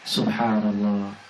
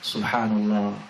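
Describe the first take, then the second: Both takes have the same delivery.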